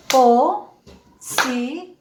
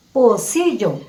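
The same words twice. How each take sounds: First: "Pocillo" very slowly, po... ci... llo; syllable by syllable. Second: Said in the usual way. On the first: Shown as a demonstration. Teacher asks how many voice beats, syllable by syllable. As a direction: break "Pocillo" into three long beats. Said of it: "Cuántos golpes de voz".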